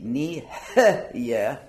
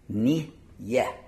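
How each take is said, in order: First: A vowel is sounded after the first syllable. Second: No vowel is sounded after the first syllable. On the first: The speaker calls it wrong. "the wrong way would be" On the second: The speaker calls it right. "because that's a resting shva"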